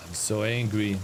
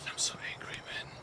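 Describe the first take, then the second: First: Said in the usual way. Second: A breathy whisper of pent-up anger. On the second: Real, not acted. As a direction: whisper it through your teeth, seething. Whispering his frustration to himself.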